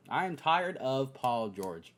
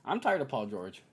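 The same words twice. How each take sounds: First: I am tired of Paul George, said slowly with am and tired stressed; slow the line and lean on am and tired; emphatic, slow I am tired. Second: Said in the usual way. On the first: Real, not acted.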